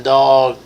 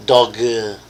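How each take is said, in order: First: Said in the usual way. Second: "dog, uh" as one word, an uh tacked onto the g; added final vowel. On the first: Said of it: "instead of saying dog". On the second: Shown as a demonstration. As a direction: say "dog, uh" run together as dog-uh. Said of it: "you will say".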